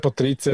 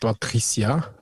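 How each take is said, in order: First: The name is pronounced the German way. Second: The name is pronounced the French way.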